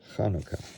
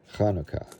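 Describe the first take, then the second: First: It begins with a soft throaty sound. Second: The same.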